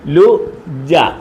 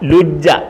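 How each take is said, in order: First: The syllables are said apart, with a break. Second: The syllables are run together quickly, no break.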